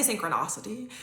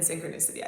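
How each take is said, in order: First: Synchronicity stressed as sin-kruh-NAH-suh-tee. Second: Synchronicity stressed as sin-kruh-NISS-ih-tee. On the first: Host showing one of two ways, synchronicity with "NAH". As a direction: say synchronicity with an open "ah" in the third syllable. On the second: Host showing the other way, synchronicity with "NISS". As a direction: say synchronicity with a short "ih" in the third syllable. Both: Shown as a demonstration. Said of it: "I say it both ways".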